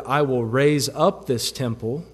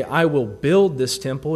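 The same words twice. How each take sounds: First: "raise up" leaned on as the right word; stress on RAISE UP. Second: "build" leaned on as the wrong word; stress on BUILD. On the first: Preacher giving Jesus's actual word, stress on "raise up". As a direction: mark out "raise up" with emphasis. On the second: Preacher showing what Jesus didn't say, stress on "build". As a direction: set "build" apart with emphasis. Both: Retold or imitated.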